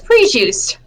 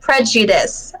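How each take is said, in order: First: The second syllable sounds like 'juice'. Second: The second syllable sounds like 'ju'. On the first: The speaker calls it wrong. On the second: The speaker calls it right.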